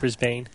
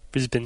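First: The second syllable has a full, long vowel. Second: The second syllable has a short, reduced vowel. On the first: The speaker calls it wrong. "Not Brisbane" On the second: The speaker calls it right. "You're not supposed to pronounce the A or the E, apparently"

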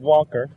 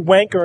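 First: The word is said a non-British way. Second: The word is said the British way. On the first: "instead of wonker" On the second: "They say wanker"

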